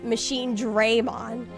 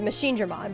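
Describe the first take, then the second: First: The first vowel of Dramon sounds like 'ay'. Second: The first vowel of Dramon sounds like 'ah'. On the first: The speaker calls it wrong. "all of the characters in that game were pronouncing it as Machine Draymon" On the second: The speaker calls it right. "which is the correct pronunciation"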